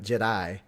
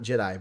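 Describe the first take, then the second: First: It is said as Je'daii, with a different ending. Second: It is said as the familiar word Jedi. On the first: The original, older order. The speaker calls it right. "but Jedi. It's a little enunciation difference there" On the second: The later, familiar order. The speaker calls it wrong. "So not Jedi"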